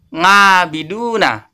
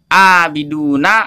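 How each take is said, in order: First: It begins with an ng sound. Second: It begins with a plain vowel sound. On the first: "atau ngabiduna" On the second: "bukan abiduna"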